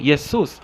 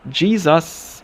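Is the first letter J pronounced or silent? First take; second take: silent; pronounced. First: The word begins without a J sound. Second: The word begins with a pronounced J sound. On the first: This is the Spanish way of saying the name. "this is silent in their language" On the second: This is the English way of saying the name. "For us in English, the J is pronounced"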